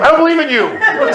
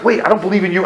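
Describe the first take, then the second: First: High-pitched, indignant cry to God; escalated protest. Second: Mildly raised, halting protest to God; restrained objection. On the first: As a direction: throw it upward in comic desperation. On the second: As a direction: object before the panic takes over. First, more restrained take to God. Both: Retold or imitated.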